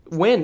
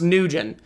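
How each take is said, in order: First: The name is said as one short syllable. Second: The name is said with two syllables, ending in -gent. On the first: The speaker calls it right. "It's pronounced" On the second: The speaker calls it wrong. "I always thought this last name was pronounced Nugent"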